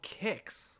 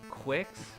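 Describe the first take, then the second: First: The name starts with a plain "k" sound. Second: The name starts with a "kw" sound. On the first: The speaker calls it right. "apparently it's called Kicks" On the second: The speaker calls it wrong. "I've been mispronouncing the name of this game for years"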